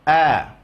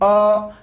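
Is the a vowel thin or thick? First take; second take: thin; thick. First: The a vowel is thin, with spread lips. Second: The a vowel is thick, with unspread lips. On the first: The speaker calls it right. "tipis, senyum" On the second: The speaker calls it wrong.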